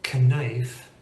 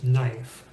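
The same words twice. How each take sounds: First: The K at the start is sounded. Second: The K at the start is silent. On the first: "Knife is a little bit harder to say" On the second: "than just knife"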